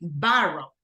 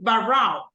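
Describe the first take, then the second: First: The stress is on the first syllable. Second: The stress is on the second syllable. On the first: The speaker calls it right. "it's in the first one" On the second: The speaker calls it wrong. "I'm not saying barrel"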